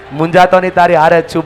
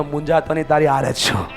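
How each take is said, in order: First: Louder, firmly projected line; emphatic repeat. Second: Said in the usual way. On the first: Shown as a demonstration. Speaker has neighbours reassure each other, loud emphatic prompt. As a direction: say it out loud for a crowd to follow. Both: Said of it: "ખંભા ઉપર હાથ મૂકીને કહો".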